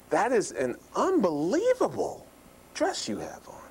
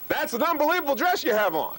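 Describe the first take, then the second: First: The pitch swings noticeably up and down. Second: The words are said with marked loudness. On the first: "Let me do pitch again"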